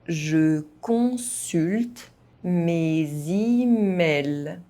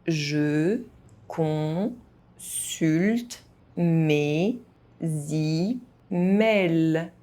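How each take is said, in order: First: It is spoken at an ordinary, moderate pace. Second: It is spoken very slowly, syllable by syllable. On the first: "at a normal pace" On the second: "very slowly"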